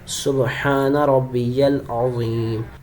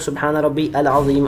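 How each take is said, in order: First: 'Rabbi' runs into 'yal' with a y sound. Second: 'Rabbi' is followed by a separate 'al'. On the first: The speaker calls it right. "या लाम ज़बर यल" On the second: The speaker calls it wrong. "बहुत सारे लोग सुबहान रब्बी अल अज़ीम अल अज़ीम पढ़ रहे होते हैं, बहुत बड़ी गलती करते हैं।"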